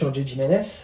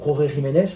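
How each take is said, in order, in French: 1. Le nom se prononce avec des sons français. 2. Le nom se prononce avec des sons espagnols.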